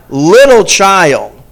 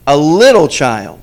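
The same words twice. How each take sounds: First: "Little" drawn out loud and slow; stress on little. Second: Put-on "A little child" repeated, still emphatic but less drawn; repeated with stress. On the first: Preacher stressing the scripture's key words, slow and loud. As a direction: lean hard on "Little child". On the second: Preacher echoing the phrase for the congregation, still stressed. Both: Shown as a demonstration.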